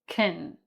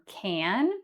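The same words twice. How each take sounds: First: Can is unstressed with a reduced vowel. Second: Can is stressed with a full vowel. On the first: "That's the unstressed pronunciation" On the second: "which is the stressed pronunciation"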